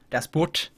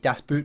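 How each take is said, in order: First: It is said carefully, with a German-sounding pronunciation. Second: It is said casually, with an English-sounding pronunciation. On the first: The speaker calls it right. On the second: The speaker calls it wrong.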